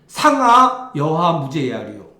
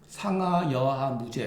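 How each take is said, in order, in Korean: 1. 크게, 높낮이를 올려서 읽어요. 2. 조용하게, 높낮이 없이 읽어요. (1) "소리가 팍 올라가야 돼요" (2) "이렇게 읽으면 안 돼"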